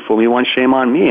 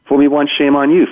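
First: "me" lifted with a rising tune; stress on me. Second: "you" lifted with a rising tune; stress on you. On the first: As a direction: lean on "me" at the end. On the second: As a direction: lean on "you" at the end. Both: Shown as a demonstration.

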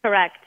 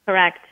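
Both takes have the same delivery.

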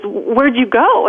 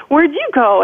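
First: Slow, worried mother's question; mother drawing it out, searching for her lost child; mom asking. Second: Put-on higher, small child's echo; little girl echoing. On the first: Retold or imitated. Mother finds her lost daughter in the store, slow and worried. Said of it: "she says". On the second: Lost little girl answers her mother, higher childlike echo. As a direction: parrot it back like a scared little kid. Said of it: "And I said".

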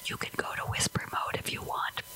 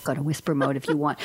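First: Soft unvoiced whisper, voicing Alexa. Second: Said in the usual way. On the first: Alexa whispering her reply to the host. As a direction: hush it like a machine's secret. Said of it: "and she whispered". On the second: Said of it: "And she said".

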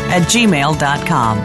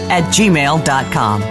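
No difference in how they are said.

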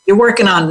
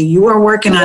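First: Said in the usual way. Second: "are" pushed up and held as a correction; stress on ARE. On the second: Shown as a demonstration. Correcting herself for the listener, stress on "are". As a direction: lean hard on "are" to insist. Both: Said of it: "not trying to".

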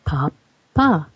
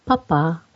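First: Papa stressed on the first syllable, PA-pa; German-style papa. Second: Papa stressed on the second syllable, pa-PA; papa with the stress at the end; French-style papa. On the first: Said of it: "Germans emphasize the first syllable". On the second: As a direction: say papa leaning on the final pa. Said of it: "the French stress the second syllable". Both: Shown as a demonstration.

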